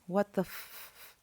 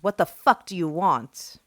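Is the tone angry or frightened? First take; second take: frightened; angry. First: It is said as a frightened whimper. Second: It is said in an angry, commanding tone.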